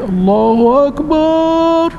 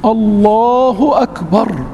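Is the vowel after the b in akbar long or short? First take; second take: long; short. First: The vowel after the b is drawn out long. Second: The vowel after the b is kept short. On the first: The speaker calls it wrong. "بعض المؤذنين تسمعهم من بعيد" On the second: The speaker calls it right. "الباء عمرها ما تمد"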